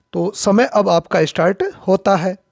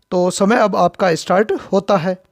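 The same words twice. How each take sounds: No difference in how they are said.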